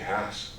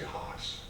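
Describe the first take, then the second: First: The name is said in the plain, everyday way. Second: The name is said in a fancier, snootier way. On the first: This is the correct name of the variety. The speaker calls it right. "I just said it correctly" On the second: The speaker thinks it sounds more refined. The speaker calls it wrong. "people think it's snootier and they say Haas"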